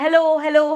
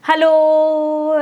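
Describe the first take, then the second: First: Hello repeated as separate bouncing echoes; echoing hello. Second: One long drawn-out hello that trails off; stretched reverb hello. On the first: Teacher showing students how an echo repeats the whole word, repeated hellos. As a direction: say hello again and again like an echo off a hill. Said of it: "एको में पूरा word repeat कर रहा है". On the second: Teacher showing students how reverberation stretches the sound, long drawn-out hello. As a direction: stretch the hello as if it lingers in a hall. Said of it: "आवाज़ खिंचती हुई जाती है". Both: Shown as a demonstration.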